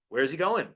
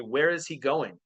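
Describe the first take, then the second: First: The words are contracted and run together. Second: Each word is said separately and clearly. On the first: "We say" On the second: "we don't say"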